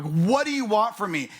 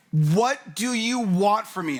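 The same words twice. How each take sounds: First: Exasperated demo. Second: Higher, louder and slow, fed up; exasperated outburst. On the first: Pastor re-showing the congregation his exasperated question. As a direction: re-enact the cry of frustration. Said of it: "I said it like that with my hand". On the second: Husband yelling at his wife mid-argument, exasperated. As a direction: throw the question out in frustration. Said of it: "I'm like". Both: Retold or imitated.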